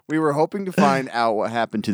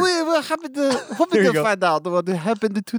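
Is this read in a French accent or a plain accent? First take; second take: plain; French. First: It is read in the speaker's ordinary accent. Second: It is read in an attempted French accent.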